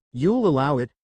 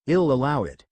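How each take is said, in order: First: Mildly incredulous echo. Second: Said in the usual way. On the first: A narrator's reading. Nephew repeats his uncle's verdict, incredulously. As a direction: question it with a touch of disbelief. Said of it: "repeated incredulously". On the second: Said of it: "hummed while rubbing his chin thoughtfully".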